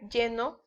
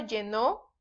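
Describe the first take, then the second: First: The stress is on the first syllable. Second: The stress is on the last syllable. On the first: It describes the present. "sin acento" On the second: It is an action in the past. "cuando lleva acento llenó, es en pasado"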